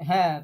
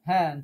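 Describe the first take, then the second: Both takes have the same delivery.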